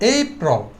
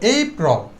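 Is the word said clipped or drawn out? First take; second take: drawn out; drawn out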